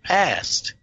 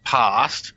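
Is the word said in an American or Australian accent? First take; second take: American; Australian. First: It is said in an American accent. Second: It is said in an Australian accent. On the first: "The American way" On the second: "which is my Aussie accent"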